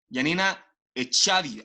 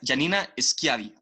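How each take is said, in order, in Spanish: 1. El apellido empieza con un sonido vocálico. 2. El apellido empieza con un sonido consonántico. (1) "no sé cómo se dice su apellido" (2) "ahí me salió mucho mejor"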